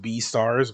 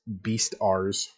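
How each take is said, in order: First: The name is split after bee, then stars. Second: The name is split after beast, then ars. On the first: "It's pronounced B stars" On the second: "You'd actually pronounce it beast beast R's"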